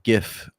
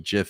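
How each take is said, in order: First: The word starts with a hard G sound. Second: The word starts with a J sound. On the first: "GIF would be like gift" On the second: "Jif is J"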